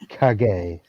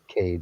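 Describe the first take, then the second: First: The name is said with Japanese pronunciation. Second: The name is said like the English word cage. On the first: The speaker calls it right. "the Japanese pronunciation of Kage-san's name" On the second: The speaker calls it wrong. "not Cage"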